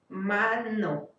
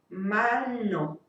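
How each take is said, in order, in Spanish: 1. La n se pronuncia en la encía. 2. La n se pronuncia en el paladar duro.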